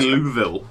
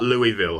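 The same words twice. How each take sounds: First: The name has the local residents' pronunciation. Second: The name has the common outsiders' pronunciation. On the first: The speaker calls it right. "actually Louisville" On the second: The speaker calls it wrong. "not Louisville"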